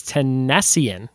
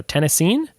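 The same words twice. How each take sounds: First: "Tennessean" as teh-NESS-ee-un; slow "Tennessean", stressed on NESS, ending ee-un; mistaken pronunciation. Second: "Tennessean" as TEN-uh-seen, rising like a question; corrected pronunciation. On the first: Quiz host guessing at element thirteen, mistaken pronunciation. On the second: Quiz host correcting himself on element thirteen, questioning pronunciation. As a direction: say "Tennessean" ending in a long seen, unsure. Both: Shown as a demonstration. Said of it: "No, Tennessean?".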